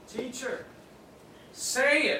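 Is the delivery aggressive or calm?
calm. It is said in a calm, ordinary way. A polite request to speak.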